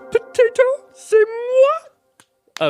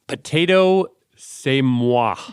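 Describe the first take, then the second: First: It is said in a Miss Piggy voice. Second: It is said in the speaker's normal voice.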